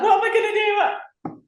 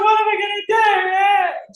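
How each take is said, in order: First: High panicked wail; mock panic. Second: High, loud panicked shout; mock panic shout. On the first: Fretting over money, much higher panicked cry. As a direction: squeal it like a drama queen. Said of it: "And I was like". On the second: Panicking over bills, high loud shout. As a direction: yell it in mock despair. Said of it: "I was like".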